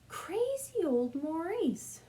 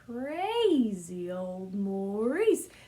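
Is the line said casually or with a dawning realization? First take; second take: casual; realization. First: It is said casually, without any sudden realization. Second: It is said with a dawning, scheming realization. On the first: "the first time you say it and the second time you say it is different" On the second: "because you have an idea in the middle"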